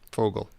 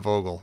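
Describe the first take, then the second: First: The name begins with an F sound. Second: The name begins with a V sound. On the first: It follows the German pronunciation. "we're told that it's pronounced Fogel" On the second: It follows the English spelling. "I'm gonna go back to saying"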